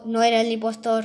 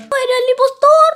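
First: Said in the usual way. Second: Much higher and louder shout. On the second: Pretend. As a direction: yell the line out. Repeating the vote result. (gritado mucho más agudo y fuerte)

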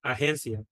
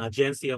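First: আহেন্সিয়া with an H sound for G; Spanish breathed G. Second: আগেন্সিয়া with a J sound for G; Portuguese soft G. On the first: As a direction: say আহেন্সিয়া as a-hen-sia. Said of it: "জ সাউন্ডটা যেহেতু ওদের নাই". (আহেন্সিয়া, জ-এর জায়গায় হ ধ্বনি) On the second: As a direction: say আগেন্সিয়া as a-jen-sia. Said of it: "বলে না". (আগেন্সিয়া, গ-এর জায়গায় জ ধ্বনি) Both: Shown as a demonstration.

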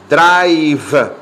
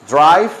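First: Drive, slow and loud-edged with a long, marked final v; drawn-out final consonant. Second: Said in the usual way. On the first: Shown as a demonstration. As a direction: stretch "Drive" and finish on a clearly sounded v. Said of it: "se pronuncia así". ("Drive" alargado, con la consonante final bien marcada) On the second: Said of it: "¿Se acuerdan cómo se pronuncia drive?".

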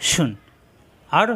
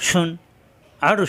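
The two takes are said the same way.

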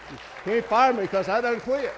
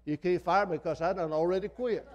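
First: Louder, laughing through the punchline; crowd-pleasing laughing repeat. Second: Said in the usual way. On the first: Real, not acted. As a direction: repeat the joke still chuckling.

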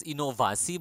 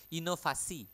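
First: Inovasi said with an English V sound; English-style V. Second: Inovasi said as inofasi, V turned to F; Indonesian F for V. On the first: Teacher showing the wrong way, inovasi with V. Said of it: "we don't pronounce it as inovasi". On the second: Teacher showing the right way, inovasi with F. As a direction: say inovasi with an F in the middle. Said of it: "but inovasi with F". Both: Shown as a demonstration.

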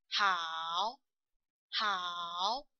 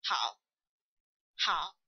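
First: 好 drawn out, falling then rising; long low dipping 好 that climbs back up; full third tone. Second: 好 cut short, only falling low; short low 好 that drops and stops; half third tone. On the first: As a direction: say 好 with both falling and rising parts. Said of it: "First is the falling part". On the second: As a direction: say 好 with just the falling part, no rise. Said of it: "we only finish the falling". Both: Shown as a demonstration.

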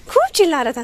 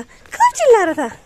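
First: High squeaky voice for the dog; a lightly higher cooing pet voice; pet baby talk. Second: Put-on much higher, louder squeal of baby talk; cooing to the dog, pitched way up; exaggerated pet baby talk. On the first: Pretend. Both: Voicing the barking dog.

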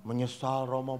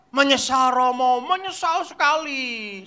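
First: Low, soft reply; remorseful girl. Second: Imitated children's chorus. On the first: Retold or imitated. Girl tells priest she is sorry, soft meek voice. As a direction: answer meekly and quietly. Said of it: "saya tanya anak perempuan". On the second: Children answer priest emphatically.

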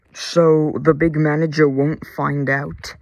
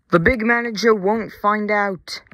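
First: Said in the usual way. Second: Higher-pitched, loud indignant yell; raised voice, pushed high. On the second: A narrator's reading. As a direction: yell it back in exasperation. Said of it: "yelled his driver".

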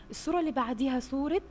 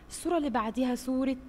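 The two takes are said the same way.

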